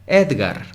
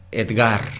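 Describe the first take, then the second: First: "Edgar" as EDgar, punched on "ed"; stress on the first syllable. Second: "Edgar" as edGAR, weight on "gar"; stress on the last syllable. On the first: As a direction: hit "ed" in "Edgar". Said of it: "Es la primera". (acento en "ed" de "Edgar") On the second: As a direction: push "Edgar" onto "gar". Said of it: "¿Será Gar?". (acento en "gar" de "Edgar") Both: Shown as a demonstration.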